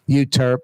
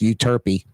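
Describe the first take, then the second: First: It uses the local pronunciation of the name. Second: It uses the standard pronunciation of the name.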